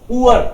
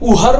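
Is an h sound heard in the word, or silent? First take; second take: silent; heard. First: No h sound is heard inside the word. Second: An h sound is heard inside the word. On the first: The speaker calls it right. "एच जो है वो साइलेंट रहता है" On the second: The speaker calls it wrong. "उहर मत बोल देना कोई"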